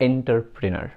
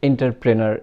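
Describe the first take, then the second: First: The word begins with an 'en' sound. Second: The same.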